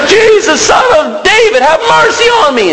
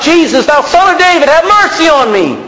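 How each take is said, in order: First: Very high, desperate shouted plea; beggar's all-out high cry; crying out louder. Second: High, raised plea for mercy; acted cry from the roadside. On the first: Acted. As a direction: shout over the crowd for mercy. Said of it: "begins to cry out even louder". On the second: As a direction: call out like a beggar to someone passing. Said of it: "he's crying out".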